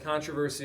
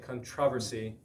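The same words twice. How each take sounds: First: It is said with an American pronunciation. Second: It is said with a British pronunciation.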